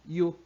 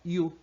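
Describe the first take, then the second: The two takes are said the same way.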